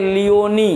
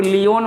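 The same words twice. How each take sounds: First: लियोनी with a clear final "nee"; correct reading. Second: लियोन ending on the n, no final ee; wrong reading. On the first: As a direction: sound the last vowel in लियोनी as a long ee. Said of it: "इसको पढ़ते हैं लियोनी". (लियोनी, आख़िर में लंबी ई के साथ) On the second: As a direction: say लियोन without the closing "ee" vowel. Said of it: "लियोन मत पढ़ना". (लियोन, आख़िर में ई के बिना) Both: Shown as a demonstration.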